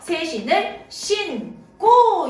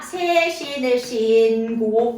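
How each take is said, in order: First: The consonant after 신 is a tense kk. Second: The consonant after 신 is a plain g. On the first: The speaker calls it right. "이렇게 된 소리가 된다는 거예요" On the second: The speaker calls it wrong. "아니죠"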